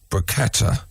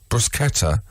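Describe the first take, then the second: First: The middle consonant is a hard k sound. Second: The same.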